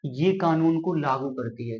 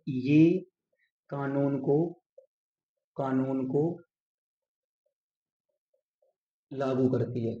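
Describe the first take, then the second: First: Said in the usual way. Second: Slow, with long pauses between phrases; phrase by phrase at writing speed; dictating while writing. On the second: Shown as a demonstration. Writing the sentence out while saying it. (लिखते हुए धीरे, ठहर-ठहर कर)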